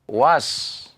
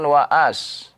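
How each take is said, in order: First: It is said as one short syllable. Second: An extra vowel splits it into two syllables. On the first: The speaker calls it right. "Tidak ada di situ harokat fathahnya" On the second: The speaker calls it wrong. "Bukan waas"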